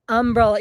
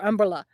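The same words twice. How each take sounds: First: The first syllable is stressed and set apart. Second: The syllables run together without a strong first syllable. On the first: "like with a capital U M" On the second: "it's just all run together"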